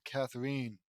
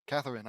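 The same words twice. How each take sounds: First: Catherine ending in a long "-een"; mispronounced name. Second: Said in the usual way. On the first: Real, not acted. Reader misreads the rival's name Catherine, ending it "-een". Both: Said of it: "Catherine, I mean".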